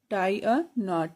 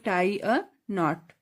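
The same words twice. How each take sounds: First: Tie a knot slowly, every word drawn out; slow it down for pupils to copy; slow drill. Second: Said in the usual way. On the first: Shown as a demonstration. Teacher repeating the answer slowly for the class. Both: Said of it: "English में कैसे बोलेंगे".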